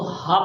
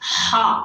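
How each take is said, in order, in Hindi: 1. h एक सादी, हल्की साँस वाली ध्वनि है। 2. h कसा हुआ है, गले के बीच से निकलता है। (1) "आम लोग इसको हा पढ़ते हैं" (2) "हा ये हमारे गले के बीच से"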